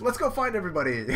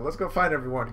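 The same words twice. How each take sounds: First: High, quick perky cartoon voice; rally friends in a little sidekick voice; pitched-up eager cheer; cheerful Chopper. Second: Said in the usual way. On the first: Chopper cheers, then reader repeats.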